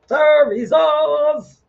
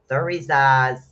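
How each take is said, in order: First: High, loud, slow announcement of Thurizaz; dramatic proclamation. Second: Said in the usual way. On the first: Shown as a demonstration. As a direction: announce Thurizaz like a grand arrival. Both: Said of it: "Thurizaz is coming in".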